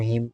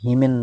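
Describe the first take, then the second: First: The word ends with an M sound. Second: The word ends with an N sound. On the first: The speaker calls it right. "এটাকে বলবো হিম" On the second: The speaker calls it wrong. "হিমেন না বলে"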